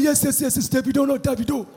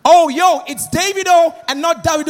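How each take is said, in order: First: Quiet correction of Davido; Nigerian Davido. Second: Davido said as Day-vee-do, American way; host stressing Davido the American way; American-style Davido. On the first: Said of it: "He said". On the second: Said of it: "the interviewer was like". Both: Retold or imitated.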